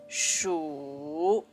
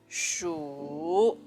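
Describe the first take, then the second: First: The syllable carries the third tone. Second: The same.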